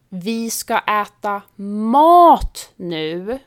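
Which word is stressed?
mat. The stress is on the word mat. We will eat real food, not sweets or snacks. "betyder vi ska inte äta godis eller snacks utan riktig mat"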